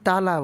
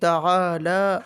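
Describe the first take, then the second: First: The word is clipped short, like tala. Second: The word has a drawn-out ta'a before la. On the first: The speaker calls it wrong. "অনেকেই তালা বলে, তালা না" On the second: The speaker calls it right. "তাআ তাআলা"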